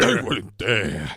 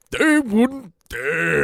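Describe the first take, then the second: First: Slow, low Pacino line; Al Pacino impression. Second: Slow, drawn-out Pacino growl; Al Pacino impression. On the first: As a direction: drag it out like Pacino. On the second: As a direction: do a big Pacino. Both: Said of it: "that impression of you going".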